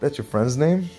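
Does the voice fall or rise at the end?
rise. The voice rises at the end, like a question.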